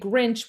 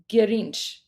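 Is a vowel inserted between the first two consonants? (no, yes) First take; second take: no; yes. First: The first two consonants are said together. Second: A vowel separates the first two consonants. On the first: The speaker calls it wrong. "we wouldn't say Grinch" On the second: The speaker calls it right. "you have to put a vowel in there somewhere"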